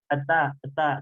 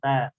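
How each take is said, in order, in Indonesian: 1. Ada bunyi vokal e tambahan sebelum ta. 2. Bunyi ta langsung dimulai tanpa vokal. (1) "Jangan sampai eta eta" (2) "tapi langsung ta"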